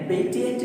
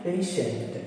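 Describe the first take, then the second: First: पेटिएंट with a plain t, said higher; the mistaken t take, पे-टि-एंट; how not to say it; wrong t sound. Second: पेशेंट with sh for the t; the correct sh take; correct sh sound. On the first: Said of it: "पेटिएंट नहीं है". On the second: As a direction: say पेशेंट as pay-shunt. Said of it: "तो ये क्या है". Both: Shown as a demonstration.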